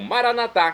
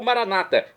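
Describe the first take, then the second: First: The stress is on the last syllable. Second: The stress is on the second-to-last syllable. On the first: This is how Catholics say it. "como dizemos nós católicos" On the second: This is how evangelicals say it. "como dizem nossos irmãos das comunidades evangélica"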